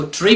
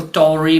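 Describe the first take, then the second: First: ट्री as a short "tree", no vowel between t and r; British "-tory" squeezed into "tree"; UK pronunciation. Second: टॉरी with a full "TAW-ree" vowel; American "-tory" with a full o; US pronunciation. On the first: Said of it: "UK English में जहां इसको ट्री pronounce". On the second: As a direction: open the ending टॉरी out into two syllables, "taw-ree". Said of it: "US English में इसको टॉरी pronounce". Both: Shown as a demonstration.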